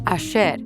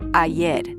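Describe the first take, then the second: First: The middle consonant is a 'sh' sound. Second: The middle consonant is not a 'sh' sound. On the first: This is how Argentines say it. "with a sh sound" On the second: This is the usual pronunciation elsewhere. "instead of"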